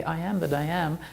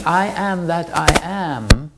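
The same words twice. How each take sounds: First: Said in the usual way. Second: "I am that I am" slow and louder, rising on "I"; very emphatic. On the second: Shown as a demonstration. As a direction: land each word of "I am that I am" with weight. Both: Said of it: "He's saying it very emphatically".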